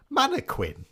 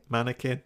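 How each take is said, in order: First: "Mannequin" ending in "-kwin", pitched very high; questioning pronunciation. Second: "Mannequin" said with a plain k, ending "-kin"; pronouncing mannequin. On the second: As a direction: say "Mannequin" as MAN-uh-kin, no w sound. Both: Shown as a demonstration. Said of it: "How do you say it?".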